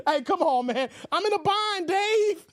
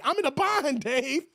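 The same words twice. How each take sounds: First: Begging friend. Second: A hint of whine, less pushed. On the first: Pretend. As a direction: whine it like a broke buddy. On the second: Broke friend asking Dave again, only lightly whiny. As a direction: toss it off as a lighter mock plea. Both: Mimicking a begging viewer.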